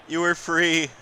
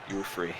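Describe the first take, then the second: First: Said in the usual way. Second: Deadpan quiet. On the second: Pretend. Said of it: "Much like a famous whale".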